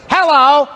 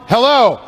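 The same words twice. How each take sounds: First: The voice has a harsh, obnoxious ringing tone. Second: The voice has a pleasant, moderate ringing tone.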